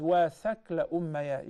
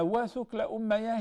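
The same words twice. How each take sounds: First: وَثَكْلَ with a short "a" after the th; alternative thakla pronunciation. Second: وَثُكْلَ with a short "u" after the th; thukla pronunciation. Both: Shown as a demonstration. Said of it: "it is also pronounced as".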